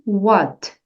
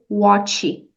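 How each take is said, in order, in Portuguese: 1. O T final quase não se ouve. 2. O T final é pronunciado forte. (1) "Esse T vai ser bem sutil" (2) "não precisa dizer what"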